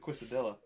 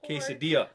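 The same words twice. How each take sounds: First: It is pronounced the way it looks written. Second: It is pronounced the usual accepted way. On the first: This is how the other person says it. The speaker calls it wrong. "I read and say it how they look" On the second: This is what is really meant. The speaker calls it right. "is what we're actually saying"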